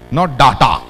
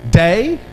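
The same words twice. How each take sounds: First: "data" with a short flat a, marked as wrong. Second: "Data" with long DAY, rising; right data. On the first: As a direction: show "data" as "dah-ta". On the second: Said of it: "It is data". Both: Shown as a demonstration.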